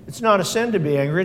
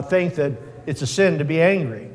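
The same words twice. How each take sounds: First: "not" lifted and leaned on, quick; stress on not. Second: Said in the usual way. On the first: Shown as a demonstration. Preacher correcting a common belief, leaning on "not". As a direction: correct the mistake by hitting "not".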